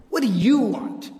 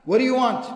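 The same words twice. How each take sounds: First: Slow, disdainful, leaning on YOU. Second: Said in the usual way. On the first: Retold or imitated. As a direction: imitate contempt for an unwelcome visitor, drawn out. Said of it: "you could hear the disdain in his voice".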